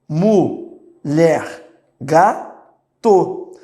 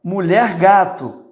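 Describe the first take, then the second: First: "mulher gato" stretched very slowly, syllable by syllable; slow sounded-out spelling. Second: Said in the usual way. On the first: Shown as a demonstration. Teacher to class, showing how the child sounds it: very slow. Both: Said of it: "olha só".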